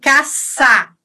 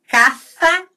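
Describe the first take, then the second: First: The first consonant is a plain hissing s. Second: The first consonant is lisped with tongue between teeth. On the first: This is the pronunciation used in Argentina and Mexico. "que é na Argentina, no México" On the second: This is the pronunciation used in parts of Spain. "ceceio com C"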